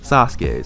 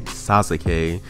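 First: The u after the s is dropped. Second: The u after the s is fully pronounced. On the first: The speaker calls it right. "you say Sasuke" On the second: The speaker calls it wrong. "You don't say Sasuke"

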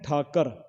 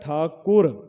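First: The second syllable is said as kar. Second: The second syllable is said as kur. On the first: The speaker calls it wrong. "ਆਮ ਕਰਕੇ ਅਸੀਂ ਪੜ੍ਹਦੇ ਹਾਂ ਠਾਕਰ" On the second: The speaker calls it right. "ਉਚਾਰਨ ਜਿਹੜਾ ਹੈ ਠਾਕੁਰ"

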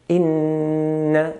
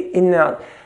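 First: The n sound is held long. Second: The n sound is short and not held. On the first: The speaker calls it right. "But hold a noon" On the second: The speaker calls it wrong. "never just say inna"

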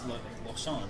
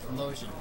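First: The word is said with a French pronunciation. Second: The word is said with an English pronunciation. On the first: "in French it's lotion" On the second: "that's how the English pronunciation of it is"

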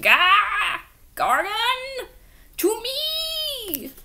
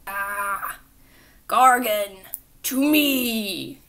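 First: It is said in a high, squeaky Skeletor voice. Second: It is said in a deep, commanding voice.

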